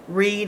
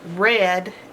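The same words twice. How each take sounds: First: The vowel is long, rhyming with seed. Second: The vowel is short, rhyming with bed. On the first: It is happening now. "Read is in present tense" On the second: It already happened. "Read is past tense"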